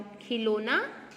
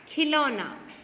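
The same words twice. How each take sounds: First: खिलौना with plain o, "khi-lo-na"; wrong pronunciation. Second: खिलौना with open au, "khi-LAU-na"; careful model "khilauna" for खिलौना; correct pronunciation. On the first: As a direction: say खिलौना slowly with rounded "lo". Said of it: "खिलौने या खिलौना". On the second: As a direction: say खिलौना loudly, wide "lau". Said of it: "क्या होता है?". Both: Shown as a demonstration.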